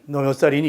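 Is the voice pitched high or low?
low. It is said in a low-pitched voice.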